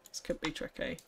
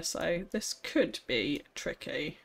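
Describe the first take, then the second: First: Hushed, breathy whisper. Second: Said in the usual way. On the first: Acted. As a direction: whisper it to yourself. Repeated as an unvoiced whisper.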